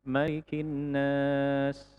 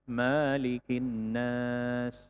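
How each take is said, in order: First: The vowel after the m is kept short. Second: The vowel after the m is drawn out long.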